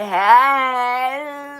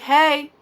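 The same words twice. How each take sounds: First: It is said boldly and forwardly. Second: It is said casually and offhand.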